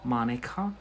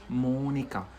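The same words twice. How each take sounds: First: Monica with an English flat a, MAH-ni-ka, rising; English pronunciation. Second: Monica with a long round O, MO-ni-ka, falling; Spanish pronunciation. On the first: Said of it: "It's not like in English". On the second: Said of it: "But it's Monica". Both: Shown as a demonstration.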